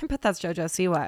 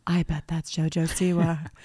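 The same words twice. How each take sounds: First: Said in the usual way. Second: Unvoiced excited whisper. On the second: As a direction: hush it like a secret sighting. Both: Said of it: "And then I went".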